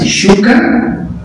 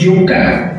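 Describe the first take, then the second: First: It begins with an 'sh' sound. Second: It begins with a 'y' sound. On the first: It reflects the speaker's own regional identity. "argentinos tienen, depende de la zona, de pronunciar el sh" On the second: It follows the local way of speaking. "no, se dice yuca"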